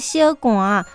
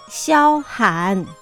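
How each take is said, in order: First: 寒 is given its colloquial everyday reading. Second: 寒 is given its literary reading-style pronunciation. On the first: The speaker calls it wrong. "唔是读作小寒" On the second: The speaker calls it right. "爱读作小寒"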